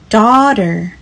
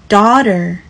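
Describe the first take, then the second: No difference in how they are said.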